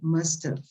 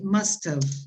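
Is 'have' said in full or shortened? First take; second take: shortened; full. First: The second word is reduced and run together. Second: Both words are said fully and separately. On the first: "when you pronounce it, you shorten it" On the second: "here you say must have"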